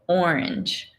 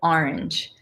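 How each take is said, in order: First: Orange is said the Los Angeles way. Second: Orange is said the Baltimore way. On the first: "I'm trying to force myself to say orange" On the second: "where I'm from in Baltimore, we say orange"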